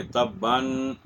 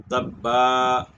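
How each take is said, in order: First: تباً said tabban, ending on a nasal n; reading on, with tanween. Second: تبا said tabba with a long a and no n, stressed; pausal form. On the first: The teacher shows students how to read without stopping. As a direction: keep the n when reading on. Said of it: "تو یوں پڑھیں گے". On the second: The teacher shows students the pausal form, stopping on a long a. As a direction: stop on a long a and drop the n. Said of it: "وقف کریں گے تو ہم پڑھیں گے". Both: Shown as a demonstration.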